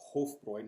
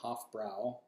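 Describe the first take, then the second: First: The second syllable has an 'oi' vowel. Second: The second syllable has a vowel other than 'oi'. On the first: The speaker calls it right. "makes the oi sound" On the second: The speaker calls it wrong. "not Hofbrau"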